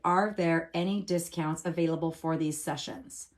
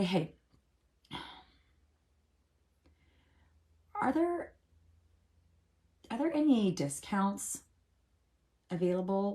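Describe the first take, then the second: First: It sounds like an innocent, neutral question. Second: It sounds hesitant but brave, working up courage.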